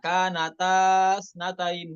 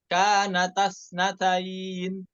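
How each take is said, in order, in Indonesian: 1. Vokal panjang dipertahankan dan dipanjangkan. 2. Vokal panjang dihilangkan dan dipendekkan. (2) "alifnya dibuang"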